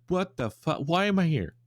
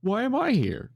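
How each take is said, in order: First: Higher, bewildered yeti voice; a yeti yanked somewhere out of nowhere; confused yeti. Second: Much higher, louder panicked yeti; the yeti's confusion spiking into alarm; panicking yeti. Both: Retold or imitated. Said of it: "that's the Yeti's immediate reaction".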